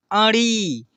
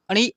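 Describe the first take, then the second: First: अड़ी drawn out with a falling end; long अड़ी. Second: अड़ी with a brief rising last vowel; short अड़ी. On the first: Teacher drills the long vowel, drawn-out अड़ी. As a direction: stretch the last vowel of अड़ी. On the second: Teacher drills the short vowel, short अड़ी. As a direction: cut the end of अड़ी short. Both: Shown as a demonstration. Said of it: "ऐसे ही उच्चारण करने".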